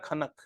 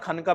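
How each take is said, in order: First: The word ends on the final consonant. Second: The word ends with an added 'a' vowel. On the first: The speaker calls it right. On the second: The speaker calls it wrong. "It's not खनका बेटा"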